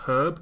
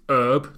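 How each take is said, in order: First: The word starts with an h sound. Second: The word starts without an h sound. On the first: "not herb" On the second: "To our American listeners, they dropped the H"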